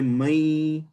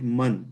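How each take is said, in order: First: The final n is merged away. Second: The final n is clearly pronounced. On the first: The speaker calls it right. "you say mai" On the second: The speaker calls it wrong. "you don't say it man"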